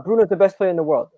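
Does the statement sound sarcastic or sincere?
sincere. It is said in a sincere, plain tone. The speaker genuinely acknowledges the claim. "There's acknowledging something"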